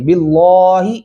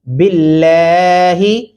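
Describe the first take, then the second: First: The L sound is heavy and thick. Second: The L sound is light and thin. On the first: The speaker calls it wrong. "ऐसे नहीं करेंगे" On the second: The speaker calls it right. "इस लाम को मोटा नहीं पढ़ेंगे"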